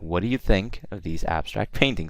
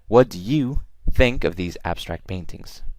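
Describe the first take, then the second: First: The words 'do you' are quick and unstressed. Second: The words 'do you' are stressed, not rushed. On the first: The speaker calls it right. "stress goes over think abstract and paintings, but not over do you" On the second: The speaker calls it wrong. "we don't say"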